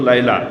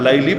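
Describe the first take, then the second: First: The name ends with an 'ah' vowel. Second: The name ends with an 'ee' vowel. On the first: This is the original pronunciation. "মূল উচ্চারণ তো লাইলা" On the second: This is the popular way people say it. "লাইলি বলে"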